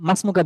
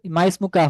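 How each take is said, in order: First: মাসমুকা run together as one word, the ই of ইসমুকা silent; মাসমুকা said as mas-mu-ka, the alif dropped; correct joined form. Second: মা ইসমুকা with the alif sounded as its own syllable; মা ইসমুকা, two words, the initial ই clearly pronounced; wrong separated form. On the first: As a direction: blend মা straight into সমুকা with no ই. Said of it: "বলে আর কি". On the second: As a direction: say মা and ইসমুকা apart, voicing the ই. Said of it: "হবে না". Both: Shown as a demonstration.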